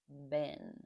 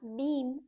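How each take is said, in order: First: It is said in the weak form, like 'bin'. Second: It is said in the strong form, like 'bean'. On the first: The speaker calls it right. "it is better to say bin, like a garbage bin" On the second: The speaker calls it wrong. "it's not been"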